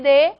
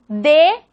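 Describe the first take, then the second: First: D softened towards the th in "this"; soft D. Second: D as a firm stop with the tongue sealed; strong D. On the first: Teacher contrasting two allophones for students, soft D. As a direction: say D lightly, tongue not sealing. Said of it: "D más suave". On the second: Teacher showing two allophones of the letter, strong D. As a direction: hit D hard, fully stopping the air. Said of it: "D más fuerte". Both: Shown as a demonstration.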